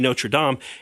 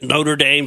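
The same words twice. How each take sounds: First: It is pronounced the French way, not as spelled. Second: It is pronounced as the spelling reads in English. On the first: This is the proper way of saying it. The speaker calls it right. "The correct, correct pronunciation should be" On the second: This is the familiar local way of saying it. The speaker calls it wrong. "as we called it"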